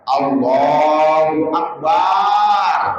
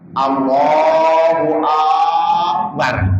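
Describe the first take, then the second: First: The vowel after b in akbar is drawn out. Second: The first vowel of akbar is drawn out. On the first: "memanjangkan ba-nya lafaz akbar" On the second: "memanjangkan a-nya lafaz akbar"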